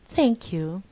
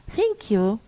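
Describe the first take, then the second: First: It is said in a formal, careful way. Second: It is said in a formal, careful way.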